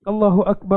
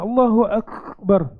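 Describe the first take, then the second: First: The k sound is said plainly, without extra force. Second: The k sound is pressed hard, almost breaking. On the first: The speaker calls it right. "kafnya itu biasa" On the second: The speaker calls it wrong. "dia macam nak break gitu"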